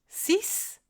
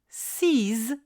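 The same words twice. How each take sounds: First: The final consonant is pronounced as s. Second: The final consonant is pronounced as z. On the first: "à la fin d'une phrase, seul ou dans un calcul" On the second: "si le mot qui suit commence par une voyelle ou un H muet"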